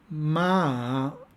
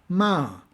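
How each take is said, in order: First: The pitch dips down and then rises. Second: The pitch falls sharply from high. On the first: It means horse. "con un tono descendente-ascendente" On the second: It means to blame. "el tono descendente"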